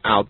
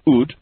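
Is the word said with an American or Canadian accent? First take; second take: American; Canadian. First: It is said with an American accent. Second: It is said with a Canadian accent.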